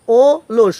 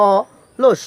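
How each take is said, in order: First: অলস starting on a closed o, "o-losh"; wrong pronunciation. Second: অলস slowly, with an open "aw-losh"; correct pronunciation. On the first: Teacher shows what not to say, অলস mispronounced "o-losh". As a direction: round the first vowel of অলস to o. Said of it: "হবে না". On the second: Teacher gives the right form, অলস pronounced "aw-losh". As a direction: open up and separate the first vowel of অলস. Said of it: "এটা উচ্চারণ হবে". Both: Shown as a demonstration.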